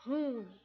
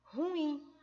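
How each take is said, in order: First: Ruim as one syllable, stress on RU; mispronunciation. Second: Ruim in two syllables, stress on IM; correct pronunciation. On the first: Teacher showing the bad habit, ruim squeezed into RÚIM. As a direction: say ruim as RÚIM, falling off after the u. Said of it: "péssimo hábito de pronunciar a palavra". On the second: Teacher answering how to pronounce it, ruim stressed on IM. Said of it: "a gente pronuncia como". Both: Shown as a demonstration.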